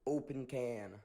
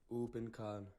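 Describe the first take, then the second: First: It is said in an American accent. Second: It is said in a non-American accent.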